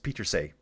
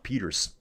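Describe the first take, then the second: First: The name ends with an extra 'say' syllable. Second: The name ends with a plain 'ers' sound. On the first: The speaker calls it right. "It's Peter say" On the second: The speaker calls it wrong. "I used to just call her Puck Peters"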